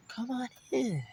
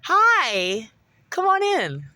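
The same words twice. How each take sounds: First: A quiet, sly invitation, a little higher; hushed fake welcome. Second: Sugary, much higher hostess voice; fake sweet welcome. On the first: Imitating his mom plotting at the door, hushed and sly. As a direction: lure him in softly, calculating. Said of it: "very meticulous in how she's gonna murder me". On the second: Imitating his possessed mom at the door, falsely sweet. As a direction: lure him in with a sweet, too-high greeting. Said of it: "You gotta smile".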